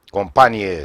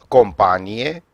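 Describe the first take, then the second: First: "companie" stressed on the second syllable, com-PA-nie; "companie" as com-PA-nie, rising; military sense. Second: "companie" stressed on the final syllables, com-pa-NI-e; "companie" as com-pa-NI-e, rising; stress marks the meaning. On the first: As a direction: say "companie" with the weight on PA. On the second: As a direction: say "companie" with the weight on NI. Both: Shown as a demonstration. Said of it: "accentele diferențiază cuvintele".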